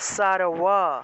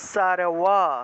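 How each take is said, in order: Both takes have the same delivery.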